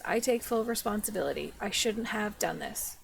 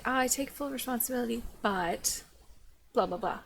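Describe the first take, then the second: First: Said in the usual way. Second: Quick mock apology trailing into dismissive filler; insincere apology example. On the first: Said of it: "That's the end of the sentence". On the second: Shown as a demonstration. Critic showing how not to apologize, dismissive mimicry. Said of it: "You can't apologize and say".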